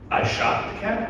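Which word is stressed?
shot. The stress is on the word shot.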